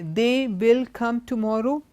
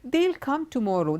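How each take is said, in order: First: They and will are said as two full words. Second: They and will merge into one short syllable. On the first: The speaker calls it wrong. "So we don't say they will come tomorrow" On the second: The speaker calls it right. "You would say they'll come tomorrow"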